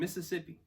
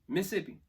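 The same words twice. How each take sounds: First: The word is said in full, all syllables. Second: The word is said shortened, syllables dropped. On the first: "That is the first time in my life I've said Mississippi" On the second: "In Mississippi, we say Mississippi"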